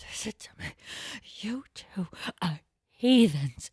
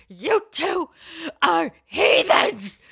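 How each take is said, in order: First: Angry stage whisper. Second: Scolding mother, sharp and raised; angry mother. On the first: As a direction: hiss it so nobody in the abbey hears. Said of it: "stage whisper where she's, like, so angry". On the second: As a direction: hurl heathens at the kids like a furious mom. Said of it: "She goes". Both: Retold or imitated.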